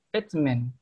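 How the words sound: It is said in a British accent. "British English ... menekankan itu di huruf T"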